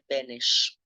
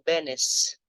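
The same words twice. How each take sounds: First: The name is pronounced the Czech way, unlike spelling. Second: The name is pronounced just as it is spelled. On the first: The speaker calls it right. "a pronúncia mais correta é Benes" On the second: The speaker calls it wrong. "eu pronunciei o nome do presidente tcheco como Benes, que é assim que se escreve"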